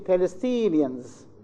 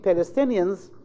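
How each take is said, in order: First: The stressed vowel is long. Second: The stressed vowel is short. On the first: It sounds like a different nationality. The speaker calls it wrong. "replace the S sound by E sound ... which is completely wrong" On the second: It names the speakers' own nationality. The speaker calls it right. "instead of saying"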